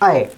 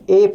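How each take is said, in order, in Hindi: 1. यह अक्षर दो हिस्सों वाले फिसलते स्वर से बोला जाता है। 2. यह अक्षर एक सादे स्वर से बोला जाता है। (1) "इसका सही उच्चारण अय है, आधा अ ए" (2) "इसे हम बचपन से ए पढ़ रहे हैं।"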